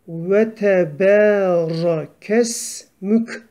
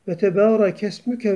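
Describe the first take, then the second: First: The phrase stops on a final consonant. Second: The phrase ends on a final vowel. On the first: The reciter pauses after this word. "durduğumuz zaman ve tebera kes mük diye duruyoruz" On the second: The reciter continues into the next words. "geçersek ... böyle hareketleri vererek okuruz"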